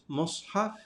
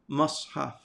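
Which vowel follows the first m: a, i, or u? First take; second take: u; a. First: The first vowel is an u sound. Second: The first vowel is an a sound. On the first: "It can have a dhamma" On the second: "it can have a fatha"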